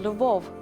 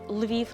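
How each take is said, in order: First: The name is said with an 'o' vowel: Lvov. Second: The name is said with an 'ee' vowel: Lviv. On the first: This is the Russian form of the name. The speaker calls it wrong. "not a Lvov, which is Russian" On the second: This is the Ukrainian form of the name. The speaker calls it right. "you call it correctly Lviv"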